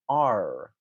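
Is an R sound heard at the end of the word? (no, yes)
yes. The final R sound is clearly pronounced. "somebody who speaks with a rhotic accent might say something more like R"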